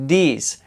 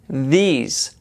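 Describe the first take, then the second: First: It starts with a d sound. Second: It starts with a th sound. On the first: The speaker calls it wrong. "lo pronuncian con una D" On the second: The speaker calls it right. "poniendo la lengua en medio de los dientes"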